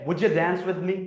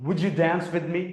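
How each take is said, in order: Both takes have the same delivery.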